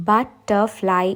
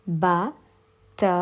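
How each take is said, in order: First: Said in the usual way. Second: ബട്ടർഫ്ലൈ very slowly as "ba, tter, fly"; three separate beats with long pauses in ബട്ടർഫ്ലൈ; slow syllable split. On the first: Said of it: "pronounce ചെയ്ത് നോക്കുക". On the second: Shown as a demonstration. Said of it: "slowly pronounce ചെയ്യുക". (ബട്ടർഫ്ലൈ പതുക്കെ മൂന്നായി, "ബ, ട്ടർ, ഫ്ലൈ")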